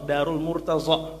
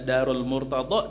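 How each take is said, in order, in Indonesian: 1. Konsonan itu bunyi z yang tipis, biasa. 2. Konsonan itu bunyi dad yang tebal, emfatik.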